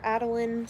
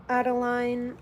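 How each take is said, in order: First: Adeline ending like "lin"; last syllable of Adeline as a short "lin". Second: Adeline ending like "line"; last syllable of Adeline as "lyne"; Adeline with long I. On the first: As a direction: say Adeline to rhyme with "tin". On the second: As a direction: say Adeline to rhyme with "fine". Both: Shown as a demonstration. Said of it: "don't know how you quite pronounce your name".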